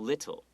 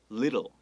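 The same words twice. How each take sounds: First: The middle T is a hard, released sound. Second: The middle T is soft and held back. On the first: "很多人会说 little" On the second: "往内收那种感觉"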